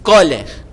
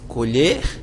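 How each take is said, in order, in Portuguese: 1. A ênfase está na primeira sílaba. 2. A ênfase está na segunda sílaba. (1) "Você não diz colher" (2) "Você diz colher"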